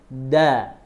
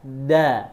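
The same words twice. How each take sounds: Both takes have the same delivery.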